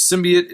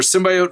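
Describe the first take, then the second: First: "symbiote" as SIM-bee-ut; bee pronunciation. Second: "symbiote" as sim-BY-oat; bio pronunciation. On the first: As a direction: pronounce "symbiote" with "bee" in the middle. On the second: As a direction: pronounce "symbiote" with "bio" as in biology. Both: Shown as a demonstration. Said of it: "There's a huge debate over symbiote versus".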